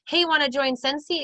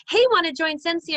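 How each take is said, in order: First: Said in the usual way. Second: High and loud, gushing sales pitch; overeager pitch. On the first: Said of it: "if you're reaching out and going". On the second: Shown as a demonstration. A recruiter showing a message that reads overeager, high and loud. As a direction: sound way too pushy and eager to join. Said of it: "It can come off as".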